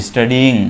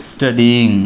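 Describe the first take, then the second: No difference in how they are said.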